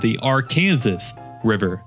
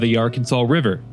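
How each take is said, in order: First: Arkansas is said the local way. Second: Arkansas is said the common, non-local way. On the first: The speaker calls it right. "that's how people here like to pronounce it" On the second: The speaker calls it wrong. "Oops, I'm sorry, I forgot the local dialect"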